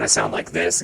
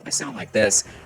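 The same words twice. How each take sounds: First: The voice is processed to a lower pitch. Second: The voice is processed to a higher pitch. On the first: "As I slide it down" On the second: "as I slide the slider up"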